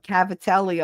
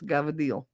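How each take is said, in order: First: Every syllable is said in full, stretched out. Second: The word is clipped, with the final vowel dropped. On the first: The speaker calls it wrong. "people say" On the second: The speaker calls it right. "don't stretch it out. It's gavadil"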